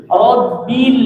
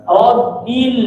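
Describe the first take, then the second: No difference in how they are said.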